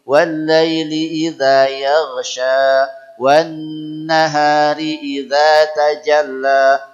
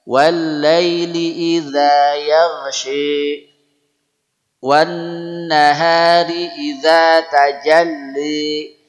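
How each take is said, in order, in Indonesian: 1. Vokal akhir itu bunyi 'a' polos yang terbuka. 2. Vokal akhir condong ke bunyi 'e'.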